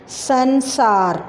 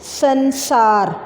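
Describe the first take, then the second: First: संसार very slowly, syllable by syllable; slow model word. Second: संसार stretched very slowly as san-saar; slow careful model of संसार; slow syllabified word. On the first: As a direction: read संसार back slowly. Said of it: "दोबारा बोलें". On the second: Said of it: "आगे देखें". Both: Shown as a demonstration.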